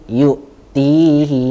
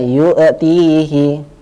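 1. Konsonan halus tanpa gema. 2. Konsonan diberi gema memantul. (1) "tapi yu'tihi mayyasha" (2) "bukan yu'tihi"

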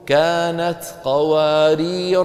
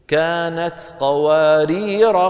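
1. تنتهي qawarir بحركة طويلة، ثم تقف. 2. تنتهي qawarir بحركة قصيرة، وتتصل بما بعدها. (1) "لكن لو وقفنا شو بنقول؟" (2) "ففي الوصل ما في ألف"

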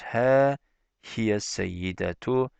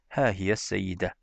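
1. Kelime tam bir 'tu' hecesiyle bitiyor. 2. Kelime 'tu' olmadan 'de' ile bitiyor.

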